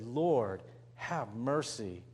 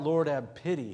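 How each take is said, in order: First: Lower, slow and soft; humble plea. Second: Said in the usual way. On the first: Acted. Preacher giving the true prayer for mercy, low and slow. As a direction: pray it quietly and humbly. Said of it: "He said". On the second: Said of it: "he didn't cry out".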